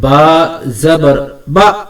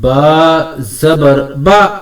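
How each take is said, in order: No difference in how they are said.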